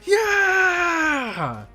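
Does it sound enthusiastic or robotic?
enthusiastic. It is said with lively enthusiasm.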